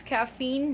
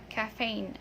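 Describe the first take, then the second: First: "caffeine" as ka-FEEN, taken slowly; long E in caffeine; "caffeine" ending like "seen"; correct pronunciation. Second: "caffeine" as ka-FAYN; long A in caffeine; "caffeine" ending like "rain"; wrong pronunciation. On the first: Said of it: "so this is caffeine". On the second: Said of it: "not caffeine". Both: Shown as a demonstration.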